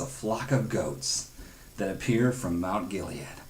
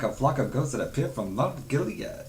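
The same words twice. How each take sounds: First: It is read in the speaker's ordinary accent. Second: It is said in a put-on British accent.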